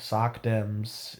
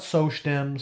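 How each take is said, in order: First: The first word sounds like 'sock'. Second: The first word does not sound like 'sock'. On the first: The speaker calls it right. "Sock Dems is uh, the correct way because uh, they wear socks" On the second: The speaker calls it wrong. "it's not Soc Dems. Soc Dems sounds stupid"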